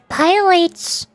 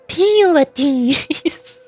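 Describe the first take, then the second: First: The final E is silent. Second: The final E is pronounced. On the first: "Pylites with a silent E" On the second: "at least it pronounces all of all of the the vowels"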